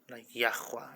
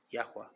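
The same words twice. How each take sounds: First: Yahweh with a rasping kh from the throat in the middle; guttural Yahweh. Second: Yahweh with a soft breathy h and no throat scrape; clean Yahweh. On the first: Showing a friend the wrong guttered Yahweh, harsh kh in the throat. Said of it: "like you're gluttering". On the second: Showing the right clean Yahweh after the guttered one, soft breathy h. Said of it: "Yahweh should be clean". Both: Shown as a demonstration.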